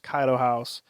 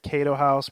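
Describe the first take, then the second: First: The first word is said like 'Kaido'. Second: The first word is said like 'Kato'. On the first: The speaker calls it right. "but it's Kaido House" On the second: The speaker calls it wrong. "it's like I want to say Kato House"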